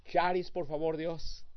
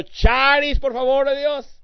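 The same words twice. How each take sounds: First: Said in the usual way. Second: "Charis, por favor" cried out higher and louder; louder plea. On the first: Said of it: "Cuando tú vives cada día". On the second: Retold or imitated. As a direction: call out "Charis" with rising urgency. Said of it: "El jueves, otro".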